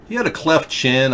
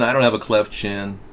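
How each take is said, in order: First: Had pushed up and leaned on; stress on had. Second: Don't hit firmly, chin trailing off; stress on don't. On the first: Comparing Chevy Chase's chin to his own, stress on had. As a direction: lean hard on the word had. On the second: Denying he shares Chevy Chase's chin, stress on don't. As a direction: put the weight on don't. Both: Real, not acted.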